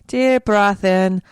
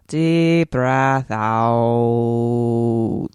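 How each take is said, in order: First: Slow, higher breathe-in cue; breathing cue. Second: Very slow, low, long-held breathe-out; breathing cue. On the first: Host settles herself after dropping the accent, slow high breathing cue. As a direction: lift and stretch it like an inhale. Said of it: "coming back to the normal". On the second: Host lets the accent go, drawn-out low breathing cue. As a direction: sink and stretch the last word like a long exhale. Guided exhale after dropping accent. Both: Pretend.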